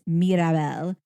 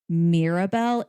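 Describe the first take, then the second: First: The name is said with Spanish-style sounds. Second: The name is said with English-style sounds. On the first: The speaker calls it right. "it's Mirabelle" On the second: The speaker calls it wrong. "It is not Mirabelle"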